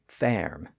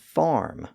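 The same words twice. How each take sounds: First: The vowel is an 'er' sound. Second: The vowel is an 'ar' sound. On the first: This is the older pronunciation. "previously farm" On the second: This is the modern pronunciation. "kept the newer R sound"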